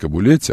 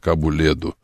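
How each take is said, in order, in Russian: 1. Название заканчивается на 'leti'. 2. Название заканчивается на 'ledu'. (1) "Не Кабулетти" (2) "а Кабуледу"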